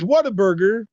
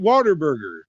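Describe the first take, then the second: First: The name starts like the words 'what a'. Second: The name starts like the word 'water'. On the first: This is how the name is written. "it looks plainly like what a burger" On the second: This is how locals in Texas say it. "they pronounce it Waterburger"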